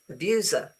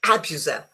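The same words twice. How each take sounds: First: The stress is on the second syllable. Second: The stress is on the first syllable. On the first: The speaker calls it right. "you put the stress on uh, um, on the second syllable" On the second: The speaker calls it wrong. "it's not abuser"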